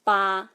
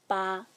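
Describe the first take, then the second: First: "ba" with the jaw dropped wide, loud; loud, long, wide-open "ba"; open-mouth tone. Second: "ba" held level like a dash; unchanging pitch on "ba"; smooth even tone. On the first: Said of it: "open wide and say". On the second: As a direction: keep "ba" smooth and steady. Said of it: "is a smooth, even tone". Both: Shown as a demonstration.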